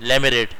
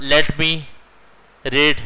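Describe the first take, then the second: First: "Let me read" run together like "lemme read"; American way. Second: "Let me read" with each word said fully and separately; British way. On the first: Teacher shows students the American shortcut, words run together. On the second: Teacher contrasts the British way with the American, full words. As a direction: keep the T in "Let" clear. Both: Shown as a demonstration. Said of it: "और American कहते हैं".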